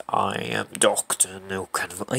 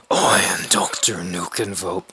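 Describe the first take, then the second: First: Slow, low, soft villain introduction; deep voice. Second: Low, raspy villain whisper; deep voice. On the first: Introducing the doctor by name, deep voice. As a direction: attempt a deep villain voice, quietly. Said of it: "You can't do it like that". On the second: Best attempt at the villain's introduction, deep voice. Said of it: "That's the closest I'm ever gonna get". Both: Acted.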